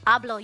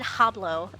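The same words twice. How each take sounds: First: It starts with no H sound. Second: It starts with an audible H sound. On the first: The speaker calls it right. "You don't pronounce the H" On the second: The speaker calls it wrong. "I said hablo"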